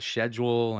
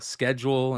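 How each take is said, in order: First: It is said with a non-American pronunciation. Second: It is said with an American pronunciation. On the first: "instead of" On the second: "American English is like we say some, you know, schedule"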